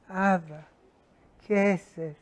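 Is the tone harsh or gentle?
gentle. It is said in a gentle, loving tone.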